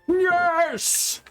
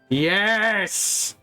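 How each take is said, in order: First: It is said in an imitation of Bison's voice. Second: It is said in the speaker's own voice.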